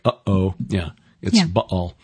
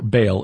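First: The word has a glottal stop in the middle. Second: The word is said smoothly without a glottal stop. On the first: This is the scholarly pronunciation. "Scholars will put the glottal stop in there like" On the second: This is the everyday pronunciation. "the way we normally pronounce it"

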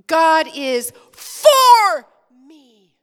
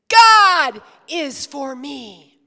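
First: The word for is stressed. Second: The word God is stressed. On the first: "Now we're going to emphasize for" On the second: "we're going to give the big emphasis to God first"

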